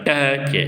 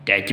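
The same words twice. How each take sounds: First: टच stretched out, its vowel held long; wrong drawn-out reading. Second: Said in the usual way. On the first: Shown as a demonstration. Teacher shows students a misreading, टच dragged out. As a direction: draw out टच instead of saying it short. ऐसे नहीं पढ़ा जाता. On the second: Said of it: "टच पढ़ा जाता है".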